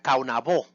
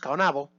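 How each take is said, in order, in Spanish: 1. El acento está en la última sílaba. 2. El acento cae antes de la última sílaba. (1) "pronunciado correctamente era Caonabó, con el acento en la O" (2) "como le decíamos antes"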